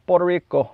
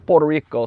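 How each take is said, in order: First: Puerto Rico with a light Puerto Rican Spanish accent. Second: Said in the usual way. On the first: Shown as a demonstration. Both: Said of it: "That's my accent".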